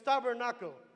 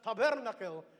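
First: The word is said with an American accent. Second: The word is said with a Filipino accent. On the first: "But we're in America now, it's tabernacle" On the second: "If you're Filipino, you'll pronounce that as tabernacle"

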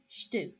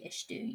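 First: The first vowel is dropped almost completely. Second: The first vowel is pronounced fully. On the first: The speaker calls it right. "you say stu" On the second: The speaker calls it wrong. "Only you don't say estu"

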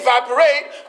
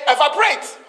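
First: It is said in an American accent. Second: It is said in a Ghanaian accent.

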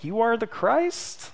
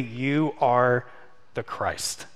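First: It is said as a question, rising. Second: It is said as a confident statement, falling.

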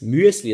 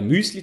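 First: The first vowel glides from ü into e. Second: The first vowel is a plain long ü. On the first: This word names the cereal mix. The speaker calls it right. "Aber richtig wäre es Müesli ... das ist die Schweizer Variante" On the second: In Swiss German this word means a little mouse. The speaker calls it wrong. "wenn ich jetzt in Deutschland sagen würde, Müsli"

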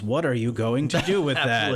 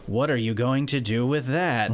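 First: The question sounds eager and curious. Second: The question sounds scornful and doubtful. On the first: The degree opens many possibilities. The speaker calls it right. "one ought to phrase the tone a little differently to, oh, there's a large number of options" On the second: The degree seems useless. The speaker calls it wrong. "we are very used to hearing it with the"

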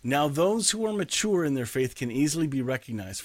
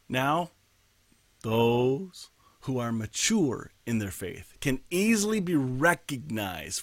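First: The sentence is read at a faster pace. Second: The sentence is read at a slower pace.

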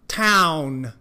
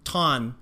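First: The ow vowel is full and strongly voiced. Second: The ow vowel is weak and not fully voiced. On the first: The speaker calls it right. "把那个ow 的音用力的发出来town" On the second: The speaker calls it wrong. "记得不要变成town"

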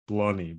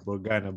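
First: No G sound is pronounced in the middle. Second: A G sound is pronounced in the middle. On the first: The speaker calls it right. "but like it's Blony" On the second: The speaker calls it wrong. "if you write it with a G, you kind of say like Blogana"

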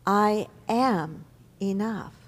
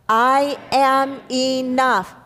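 First: It is said softly and deeply. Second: It is said at a normal, fuller volume.

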